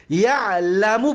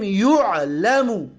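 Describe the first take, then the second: First: Said in the usual way. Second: Slow یعلمو as yu'-la-mu; u on the first syllable of یعلمو, a before the end; passive vowels. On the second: Shown as a demonstration. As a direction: sound out یعلمو as "yu'lamu".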